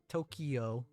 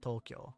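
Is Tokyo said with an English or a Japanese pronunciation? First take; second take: English; Japanese. First: It is said with an English pronunciation. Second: It is said with a Japanese pronunciation. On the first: The speaker calls it wrong. "Not Tokyo like in English" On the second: The speaker calls it right. "but Tokyo"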